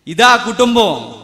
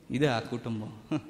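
First: ఆ hit higher and louder in a falling proclamation; loud preached repeat of ఇదే ఆ కుటుంబం. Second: Softer, slower, lower, almost to himself; quiet and slow. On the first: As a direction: proclaim it, hitting ఆ hard. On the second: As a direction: say it low and slow as a first take. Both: Shown as a demonstration.

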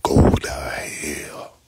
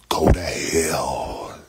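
First: Slow whispered go to hell. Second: Low, slow, loud go to hell; slow shout. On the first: Telling the troll go to hell again, a slow hiss of a whisper. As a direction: breathe it low and slow, no voice. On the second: Telling a troll in chat go to hell, slow low shout. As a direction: drag out each word and bark it. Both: Real, not acted.

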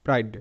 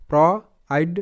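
First: Said in the usual way. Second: "প্র আইড" with a clear pause between প্র and আইড; sounded out in parts. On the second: Shown as a demonstration. Teacher building a word from its parts, "প্র আইড" sounded out. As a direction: say প্র, wait, then আইড. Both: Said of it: "পি আর পয় র".

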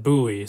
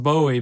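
First: "[name]" with an oo, BOO-ee; pronounced BOO-ee. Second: "[name]" with a long O, BOH-ee; pronounced BOH-ee. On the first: Quoting how his student said it, "[name]" as BOO-ee. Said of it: "he pronounced it [name]". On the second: Explaining the usual way to say the name, "[name]" as BOH-ee. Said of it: "it's pronounced [name]". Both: Shown as a demonstration.

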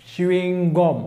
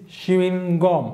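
No difference in how they are said.

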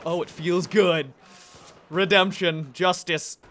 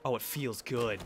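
First: Louder, slower savouring gloat; loud relish. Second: Said in the usual way. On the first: Real, not acted. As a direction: savour the revenge aloud.

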